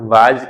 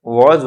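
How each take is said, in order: First: "was" as open vaaz; pronunciation to replace. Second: "was" as rounded wawz; preferred pronunciation. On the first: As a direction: say "was" with v and long aa. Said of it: "की जगह". ("was" को वाज़ बोलें) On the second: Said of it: "बोलने की कोशिश करना". ("was" को गोल वॉज़ बोलें) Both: Shown as a demonstration.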